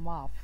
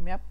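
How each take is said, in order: First: The word ends with an f sound. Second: The word ends with a p sound. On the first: The speaker calls it wrong. "এটার বলতাম মাফ" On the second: The speaker calls it right. "আমি এটার ম্যাপ পড়তাম না"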